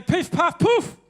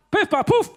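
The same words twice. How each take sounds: First: Magic word. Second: High, louder magic chant; magic word. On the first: Comedian shows kids the magic word, called out high. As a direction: call out the spell for the kids. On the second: Comedian repeats the magic word for the children, high and loud. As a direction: chant it for the crowd to copy. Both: Shown as a demonstration.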